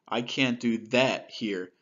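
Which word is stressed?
that. The word "that" carries the main stress. The issue is about a behavior. "if I change the emphasis to that"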